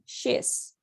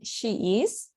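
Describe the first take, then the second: First: She and is are merged into one syllable. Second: She and is are said as two words. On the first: "I say she's" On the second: "instead of saying she is"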